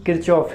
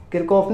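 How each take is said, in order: First: "किरचॉफ" with a ch sound starting the second syllable; corrected pronunciation. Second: "किरकॉफ" with a k sound starting the second syllable; mispronunciation demo. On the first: Teacher correcting students on the name, ch-sound pronunciation of "किरचॉफ". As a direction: say "किरचॉफ" as kir-chof, no k in the middle. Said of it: "किरचॉफ है". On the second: Teacher rejecting a common reading, hard-k mispronunciation of "किरकॉफ". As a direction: say "किरकॉफ" as kir-kof, no ch. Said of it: "किरकॉफ नहीं है". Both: Shown as a demonstration.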